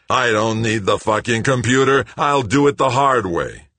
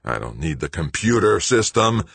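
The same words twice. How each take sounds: First: High, loud, furious shouting; railing furiously. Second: Moderately angry rant, building at the end; railing. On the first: Greg banging his wrench on the pumps, railing loudly. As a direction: shout it in an enraged rant. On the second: Greg storming between the pumps, railing. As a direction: rail against it, pushing toward a shout. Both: A narrator's reading. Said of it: "Greg railed".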